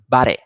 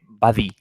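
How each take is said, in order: First: The d is made with the tongue in. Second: The d is made with the tongue out. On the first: The speaker calls it right. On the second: The speaker calls it wrong. "sacando la lengua"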